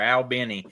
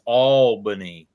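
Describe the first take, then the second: First: It is said the way Albany, Georgia says it. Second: It is said the way Albany, New York says it. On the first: This is how people in Georgia say the name. "that's how they said it down there" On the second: This is how people in New York say the name. "they don't say it like we do"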